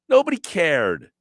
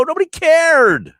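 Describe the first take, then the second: First: Said in the usual way. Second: High, loud emphatic cry; real exasperation, pitch shooting up; exasperated outburst. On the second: Real, not acted. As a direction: punch it out at the top of the voice. Emphatic rant, then repeated lower.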